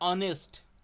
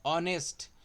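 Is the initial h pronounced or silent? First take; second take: silent; silent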